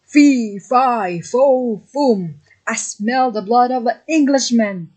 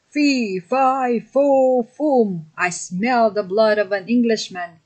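First: A giant's chant called out louder and higher, fee loudest; second giant's roar, louder all through; giant calling out. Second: A giant's chant, pitched higher and pushed out; first giant's bellow, each of fee, fi, fo, fum punched higher. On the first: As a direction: roar it after the fleeing boy. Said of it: "The giant woke up and called". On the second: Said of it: "he bellowed". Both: Acted.

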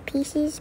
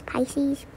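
First: Said in the usual way. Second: "Pisces" said PIE-seez, like the star sign; Pisces for pieces. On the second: Shown as a demonstration. To the viewers, joking that pieces sounds like "Pisces", PIE-seez. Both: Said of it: "pieces should be spelled like Pisces".

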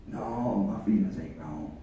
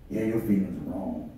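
First: Much lower, much softer stubborn reply; answering inner voice. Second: Lower, softer accusing voice; a hint of the doubting voice, pressing; inner voice of doubt. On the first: Acted. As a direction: mutter back a low, quiet denial. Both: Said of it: "I'm preaching that war that goes on the inside".

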